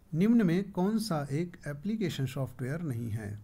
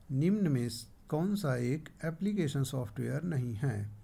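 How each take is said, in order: Both takes have the same delivery.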